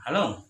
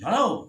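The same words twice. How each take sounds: First: It is said at a normal pitch. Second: It is said at a high pitch.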